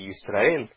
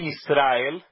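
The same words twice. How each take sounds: First: The stress falls on the last syllable. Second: The stress falls before the last syllable. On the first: The speaker calls it right. "é Israel. / Também é uma oxítona" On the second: The speaker calls it wrong. "Não é Israel"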